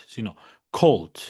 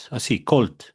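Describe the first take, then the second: First: "cold" said slower and carefully, a full "kolt"; correct pronunciation. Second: "cold" said the wrong way, the way learners say it; wrong pronunciation. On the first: Teacher gives students the correct "cold", drawn out slowly. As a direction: model "cold" the right way, slowly. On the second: Teacher shows students the wrong way to say "cold". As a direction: give "cold" as the mistake to avoid. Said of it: "entonces no es solo cold". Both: Shown as a demonstration.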